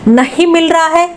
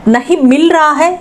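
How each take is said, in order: No difference in how they are said.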